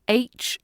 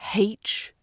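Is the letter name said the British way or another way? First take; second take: British; other. First: The letter name is said the British way. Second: The letter name is said a non-British way. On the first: The speaker calls it right. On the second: The speaker calls it wrong. "not H"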